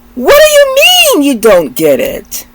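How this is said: It has a marked New York intonation. "as a native New Yorker, we can do something with intonations"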